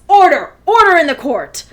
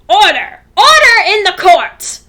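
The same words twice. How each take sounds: First: It is said in the speaker's natural voice. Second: It is said in a put-on character voice.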